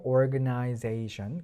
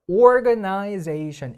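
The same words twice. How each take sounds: First: Organization said very slowly with stress, rising at the end; stressed organization, slow and drawn out. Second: Organization said very slowly, every syllable even; deliberately unstressed organization; no stress. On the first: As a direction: give organization its stressed syllables. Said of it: "여기도 강세가 있긴 있거든요". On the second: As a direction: read organization flat with no stress at all. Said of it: "일부러 제가 지금 강세가 없게 읽는 거예요". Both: Shown as a demonstration.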